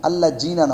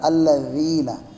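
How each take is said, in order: First: The middle consonant is a hard z-like sound. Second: The middle consonant is a soft th-like sound. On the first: The speaker calls it wrong. "নাও" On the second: The speaker calls it right. "এইভাবে নরম।"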